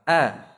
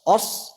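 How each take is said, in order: First: The vowel is thin and bright. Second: The vowel is thick and rounded. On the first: The speaker calls it right. "Jadi tipis" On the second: The speaker calls it wrong. "Os tidak"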